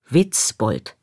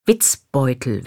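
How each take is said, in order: First: Said in the usual way. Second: "Witzbeutel" said deliberately, ending in -beutel; "Witzbeutel" set out as a misspoken Witzbold; mother's word slip. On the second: Retold or imitated. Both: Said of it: "wenn sie Witzbold meint".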